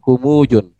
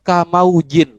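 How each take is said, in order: First: The word starts with a ku sound. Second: The word starts with a ka sound. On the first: It is read as one strange, unknown word. The speaker calls it wrong. "kumujun bilangnya" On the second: It is read as 'like' plus 'wave'. The speaker calls it right. "ini bacaannya kamaujin"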